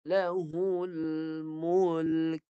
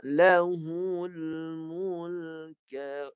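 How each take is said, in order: First: Lahul mulk with the kaf stopped and no vowel after it; teacher chants Lahul mulk, cutting it off on a still kaf; recited dead kaf. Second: Lahul mulka with a vowel sounded after the kaf; teacher chants Lahul mulka, letting the kaf open onto a; recited with vowel. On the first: Teacher showing students the dead kaf, recited. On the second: Teacher showing students the voweled kaf, recited. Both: Shown as a demonstration. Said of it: "kaf tu mati dengan bunyi begitu".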